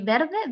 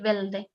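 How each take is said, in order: First: It is said with an R sound. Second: It is said with an L sound.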